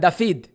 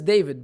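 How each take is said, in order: First: The middle consonant is an f sound. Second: The middle consonant is a v sound. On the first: The speaker calls it wrong. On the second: The speaker calls it right. "His name is David"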